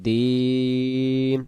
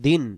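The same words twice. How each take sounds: First: The vowel is drawn out long. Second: The vowel is cut short. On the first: The word keeps its letter ya and its plural sense. The speaker calls it right. "উচ্চারণ হবে দিন টান দিতেই হবে" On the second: The letter ya drops and the word turns singular. The speaker calls it wrong. "যদি আমরা বলি দিন তখন ইয়া অক্ষরটা বাদ চলে যাবে"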